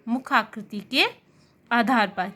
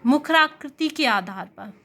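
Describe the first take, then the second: First: Said in the usual way. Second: "मुखाकृति के आधार पर" spoken slowly, each word laid out; slow and deliberate. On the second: Shown as a demonstration. Teacher introducing a new heading to students, slow and deliberate. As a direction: spell out "मुखाकृति" slowly for the class. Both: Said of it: "वह इस तरीके के question बनाता है".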